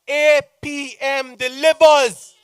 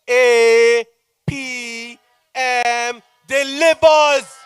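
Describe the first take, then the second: First: It is said at normal speed. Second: It is said very slowly.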